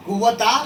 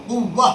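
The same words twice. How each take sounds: First: कुव्वता with the ता fully sounded; कुव्वता, the wrong way with ता at the end; wrong reading. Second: कुव्वा, ending on a long आ with no ता; कुव्वा, the right way without the final ता; correct pausal reading. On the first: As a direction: say कुव्वता, keeping the final ता. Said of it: "कुव्वता ऐसा नहीं पढ़ेंगे". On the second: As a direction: stop on कुव्वा, dropping the ता. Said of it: "बल्कि कुव्व". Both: Shown as a demonstration.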